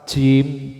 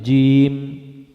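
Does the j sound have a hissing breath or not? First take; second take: hissing; no hiss. First: The j sound carries a hissing breath. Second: The j sound has no hissing breath. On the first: The speaker calls it wrong. "jim ini nggak boleh" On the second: The speaker calls it right. "tapi jim"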